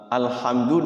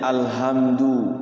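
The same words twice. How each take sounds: First: The h is a deep throat sound. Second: The h is a light breathy sound. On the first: It means all praise. The speaker calls it right. "berubah huruf ha jadi ha" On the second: It means destruction. The speaker calls it wrong. "itu rubah maknanya itu"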